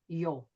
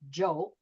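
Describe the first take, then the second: First: The name begins with a y sound. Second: The name begins with a j sound. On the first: "the j sometimes comes out like yeah" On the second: "instead of saying the boy's name is Joe"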